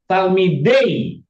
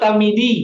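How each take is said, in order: First: The word ends in an 'ay' vowel. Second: The word ends in a plain 'ee' vowel. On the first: The speaker calls it right. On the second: The speaker calls it wrong. "bukan talmidi"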